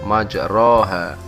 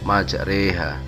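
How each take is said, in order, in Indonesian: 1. Vokal setelah r adalah a terbuka biasa. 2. Vokal setelah r condong ke arah e.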